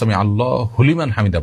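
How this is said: The break comes after Allah; 'hu' starts liman. The speaker calls it wrong. "দেখুন এটা বলার ভুল"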